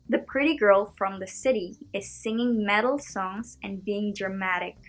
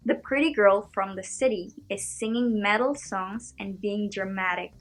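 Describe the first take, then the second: First: It has an American accent with soft T sounds. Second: The same.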